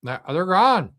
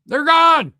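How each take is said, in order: First: Said in the usual way. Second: "gone" yelled much higher and louder; shouting. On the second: Real, not acted. Vlogger yelling to viewers that the missiles are gone, shouting. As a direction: blow up on the repeat, shouting "gone".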